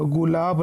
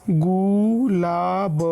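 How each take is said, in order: First: Said in the usual way. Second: gulab stretched very slowly, gu and lāb held; sounded out slowly. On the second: Shown as a demonstration. Teacher showing how to read it, gulab very slow by syllables. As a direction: draw out each syllable of gulab. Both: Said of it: "इस तरीके से आप इसको पढ़ेंगे".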